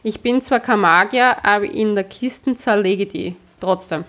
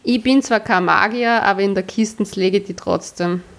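First: It is read in fairly standard German. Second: It is read in a Viennese dialect.

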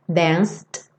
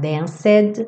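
First: The word is said as one syllable. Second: The -ed ending is sounded as an extra syllable. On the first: The speaker calls it right. "Lembra que o E não é pronunciado" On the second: The speaker calls it wrong. "você não vai falar danced"

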